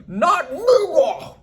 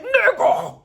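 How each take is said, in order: First: Slow, high, drawn out through laughter; mock the yell while cracking up; laughing mock yell. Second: High, sharp yell of a name; shout. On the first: Vlogger mocking Duda's outburst, laughing and drawn out. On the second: Retold or imitated. Duda yelling at Trig in surprise, high yell. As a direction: bark it out in outrage.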